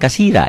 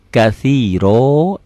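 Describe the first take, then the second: First: The word ends in an 'a' vowel. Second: The word ends in an 'o' vowel. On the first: The speaker calls it wrong. "Jangan kasira ya, ganti dengan o" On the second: The speaker calls it right. "ganti dengan o"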